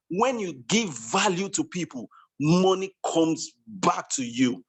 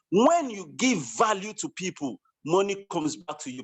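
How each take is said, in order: First: Measured repetition, slowing right down on the payoff. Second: Said in the usual way. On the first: Real, not acted. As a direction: drive the maxim home, stretching out the ending. Repeats maxim for the chat room.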